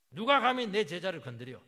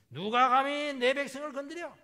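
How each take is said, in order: First: Loud roar, 누가 punched hardest; furious shout. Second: Roaring, high and loud, stress on 내; furious shout. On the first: God shouting down those who touch his disciples, roaring. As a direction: hurl 누가 at them like a challenge. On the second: God shouting at the enemy army, furious roar. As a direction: bellow 누가 감히 내 백성을 as a furious father. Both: Acted. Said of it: "막 소리부터 치고 봐요".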